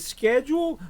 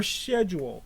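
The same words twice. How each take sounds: First: Schedule with a hard SK start; schedule starting on "sk", American style; sk pronunciation. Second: Schedule starting on "sh", British style; sh pronunciation. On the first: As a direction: say schedule as "SKED-jool". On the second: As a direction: say schedule as "SHED-jool". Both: Shown as a demonstration. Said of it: "Is it schedule or schedule?".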